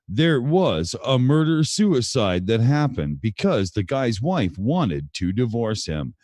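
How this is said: It is read in a formal newscaster voice. The speaker calls it right. "We have to go for a more of a Walter Cronkite here"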